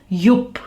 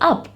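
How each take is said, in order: First: The word begins with a y glide sound. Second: The word begins with a plain short vowel. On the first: The speaker calls it wrong. "You don't say it as yup" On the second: The speaker calls it right. "You say it as up"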